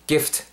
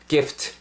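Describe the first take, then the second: No difference in how they are said.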